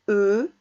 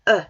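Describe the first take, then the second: First: The vowel is closed, with lips tightly rounded. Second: The vowel is open, with the mouth wider. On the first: "soit avec un E fermé" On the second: "soit un E ouvert"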